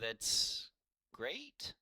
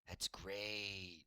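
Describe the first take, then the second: First: It is said in a doubtful, unsure way. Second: It is said in a sure, confident way. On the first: "Like, you're not sure" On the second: "the way you change it"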